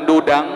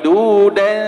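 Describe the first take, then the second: First: The word ends with a nasal ng sound. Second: The word ends without a nasal ng sound. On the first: The speaker calls it wrong. "Bukan dudang" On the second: The speaker calls it right. "tapi duda ya"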